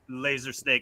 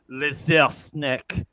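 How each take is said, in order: First: It is said in a plain English accent. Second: It is said in a French accent.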